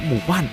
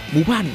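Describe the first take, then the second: No difference in how they are said.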